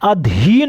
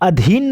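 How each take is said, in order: First: The vowel after dh is long. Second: The vowel after dh is short. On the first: The speaker calls it right. "धा पर बड़ी मात्रा लगेगा" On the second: The speaker calls it wrong. "अधीन नहीं होता है"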